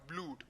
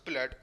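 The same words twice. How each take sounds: First: The vowel is a long oo sound. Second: The vowel is not an oo sound. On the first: This is how the word is not said. The speaker calls it wrong. "and not blood" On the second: This is how the word is actually said. The speaker calls it right. "which we still pronounced as blood"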